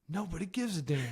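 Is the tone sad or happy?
happy. It is said in a happy, bright tone.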